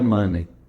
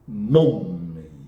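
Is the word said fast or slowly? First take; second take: fast; slowly. First: The word is said fast and clipped. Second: The word is said slowly and fully. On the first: "Vira money" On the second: "velocidade na vibração vocálica"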